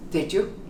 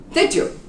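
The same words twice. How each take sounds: First: Did you blended, low and soft; didja soft. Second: Did you blended and said high; didja high. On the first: Teacher drills Did you again, low and soft. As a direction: say Did you quietly with a rise. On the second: Teacher drills Did you, high and blended. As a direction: lift Did you sharply, j sound. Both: Shown as a demonstration. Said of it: "remember, country".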